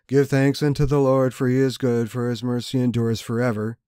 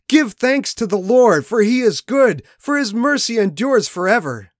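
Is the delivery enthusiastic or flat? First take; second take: flat; enthusiastic. First: It is spoken flatly, with little energy. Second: It is spoken loudly, with joyful energy. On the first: The speaker calls it wrong. "don't say" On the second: The speaker calls it right. "Shout out with enthusiasm that matches the joy in your heart"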